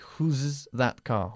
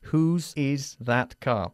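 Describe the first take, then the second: First: The word 'is' is contracted onto 'whose'. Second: The word 'is' is said in full separately. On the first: The speaker calls it wrong. "We can't say whose's that car with the contraction" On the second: The speaker calls it right. "We have to say whose is that car"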